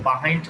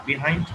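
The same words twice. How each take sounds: First: "behind" opening on a relaxed "buh"; American pronunciation. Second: "behind" opening on a short "bi"; British pronunciation. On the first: Teacher showing students the American form, "behind" as buh-HIND. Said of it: "American pronunciation". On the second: Teacher showing students the British form, "behind" as bi-HIND. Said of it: "British pronunciation". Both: Shown as a demonstration.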